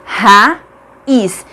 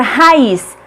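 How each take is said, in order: First: "raiz" broken into ra... iz, long pause between; syllable by syllable. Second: Said in the usual way. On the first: Shown as a demonstration. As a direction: sound out "raiz" as two separate syllables. ("raiz" silabado, com pausa: ra... iz) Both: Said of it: "Cada uma fica em uma sílaba diferente".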